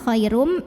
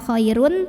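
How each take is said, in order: First: The word ends with a held, nasal m sound. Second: The word ends with a clear n sound. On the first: The speaker calls it right. "tapi khairum" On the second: The speaker calls it wrong. "Bukan khairun"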